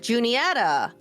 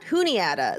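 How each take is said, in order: First: The J is clearly pronounced at the start. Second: The J is silent at the start. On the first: The speaker calls it right. "they call it Juniata ... the J is not silent" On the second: The speaker calls it wrong. "it's not Juniata"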